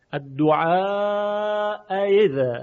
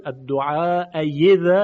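First: Slow, higher الدعاء یذا with a long held vowel before the eased hamza; second hamza between hamza and ya in الدعاء یذا; tashil, softened hamza. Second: الدعاء یذا with a full y in place of hamza; ibdal to ya. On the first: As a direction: draw out الدعاء, then glide into یذا short of a full y. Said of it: "در اینجا تسهیل هست". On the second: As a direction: pronounce یذا with an unmistakable y glide. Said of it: "این ابدال به یائه". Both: Shown as a demonstration.

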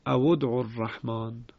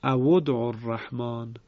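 First: او ادعوا الرحمن said as awud'u; damma link repeated. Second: او ادعوا الرحمن joined as awud'u; damma link. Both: Shown as a demonstration.

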